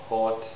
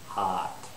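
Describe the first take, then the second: First: The vowel is a rounded 'o' sound. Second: The vowel is an open unrounded 'ah'. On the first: "some people maybe in England might say hot" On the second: "as a Canadian English speaker, I would say hot"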